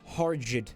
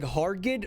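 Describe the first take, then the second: First: The G is a soft J sound. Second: The G is a hard G sound. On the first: "with a soft G so it sounds more like turgid" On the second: "Do we want to pronounce that like Hargid"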